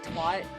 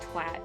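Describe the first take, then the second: First: The vowel is a long open 'ah' sound. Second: The vowel is a short 'a' sound. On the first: This is how North Americans say it. The speaker calls it wrong. "in like the United States and Canada, everyone says twat like twat" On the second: This way sounds ruder, as intended. The speaker calls it right. "it's more rude when you say it like twat"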